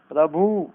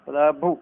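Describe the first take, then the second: First: प्रभु with a long final "oo"; wrong long ending. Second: प्रभु with a short final "u"; correct short ending. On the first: Teacher showing the error, प्रभु with long final vowel. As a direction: say प्रभु as "prabhoo". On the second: Teacher giving the correction, प्रभु with short final vowel. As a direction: stop प्रभु on a brief "u". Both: Shown as a demonstration. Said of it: "नहीं".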